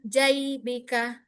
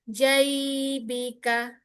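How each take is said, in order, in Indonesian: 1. Bunyi ai diucapkan pendek. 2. Bunyi ai mengalir dan dipanjangkan. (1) "bukan jai, bika" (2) "ya dialirkan"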